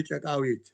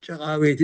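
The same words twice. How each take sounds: First: ጨቃዊት with a sharp ቃ; wrong pronunciation. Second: ጨቃዊት said the native way; correct pronunciation. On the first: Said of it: "We don't say". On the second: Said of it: "is correct". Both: Shown as a demonstration.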